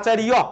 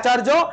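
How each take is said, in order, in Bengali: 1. শেষ অংশটি 'y' glide দিয়ে বলা হয়। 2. শেষ অংশটি 'j' ধ্বনি দিয়ে বলা হয়। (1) "সংস্কৃত হচ্ছে আচার্য" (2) "বাংলায় আচার্য"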